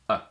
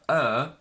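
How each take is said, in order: First: The word shrinks to a single weak vowel. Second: The word is said without the h sound. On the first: "or even simply a" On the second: "her becomes either er"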